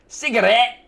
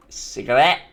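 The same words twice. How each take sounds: First: High-pitched "Cigarette" with rising end; exaggerated pronunciation. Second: Low-pitched "Cigarette" with rising end; trying out pronunciation. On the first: Testing how you say the word, high exaggerated try. Trying out the word two ways. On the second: Testing how you say the word, low-pitched try. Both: Shown as a demonstration.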